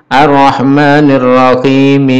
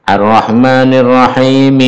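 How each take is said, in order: No difference in how they are said.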